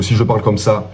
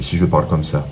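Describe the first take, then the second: First: First of two contrasting speech rates; pacing demo, a touch more energetic; delivery-rate demo, first take. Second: Second, contrasting speech rate; pacing demo, a touch held back; delivery-rate demo, second take. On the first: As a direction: show one way of pacing the line. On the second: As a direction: show the other pacing, more subdued. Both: Shown as a demonstration. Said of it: "Le débit".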